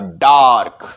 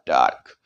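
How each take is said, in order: First: The vowel is a long open 'ah'. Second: The vowel is not a long open 'ah'. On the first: The speaker calls it right. "ऐसे बोलेंगे" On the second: The speaker calls it wrong. "Not डार्क"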